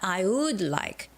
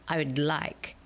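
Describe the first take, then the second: First: The word would is stressed and said fully. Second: Like is stressed and would is barely heard. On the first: The speaker calls it wrong. "It's not I would like, because would is a proverb" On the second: The speaker calls it right. "So it's got to be I would like. You almost don't hear the word would"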